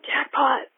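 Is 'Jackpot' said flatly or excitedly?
excitedly. It is said excitedly, with raised energy.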